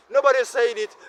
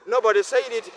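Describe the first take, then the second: No difference in how they are said.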